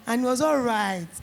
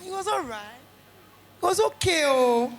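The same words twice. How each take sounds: First: Said in the usual way. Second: Half-hearted shrug. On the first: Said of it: "Don't let people do their shoulder like this". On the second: Retold or imitated. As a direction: imitate a parent who is not really impressed. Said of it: "their shoulder like this for you".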